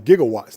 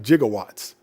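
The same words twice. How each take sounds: First: The word begins with a hard g sound. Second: The word begins with a j sound. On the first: The speaker calls it right. "the proper term is" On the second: The speaker calls it wrong. "not gigawatts"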